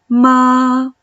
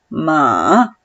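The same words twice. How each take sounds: First: The pitch stays level and steady. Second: The pitch drops down low. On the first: "el primer tono, es un tono sostenido, recto" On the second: "El tercer tono, como si te cayeras a un pozo"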